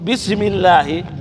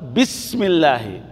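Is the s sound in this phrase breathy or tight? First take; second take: tight; breathy. First: The s sound is tight, without air flowing. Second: The s sound is breathy, with air flowing. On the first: The speaker calls it wrong. "الذي لا يتقن هذا يقول بسم الله" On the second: The speaker calls it right. "السين هنا يتصف بصفة الهمس"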